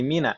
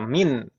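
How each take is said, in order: First: The word ends with an added a vowel. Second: The word ends on a bare consonant.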